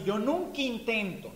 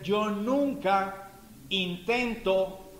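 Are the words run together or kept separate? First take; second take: run together; separate. First: The words are run together without separation. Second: The words are kept separate from each other. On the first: The speaker calls it wrong. "Y lo pronuncian así" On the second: The speaker calls it right. "la oración correcta es"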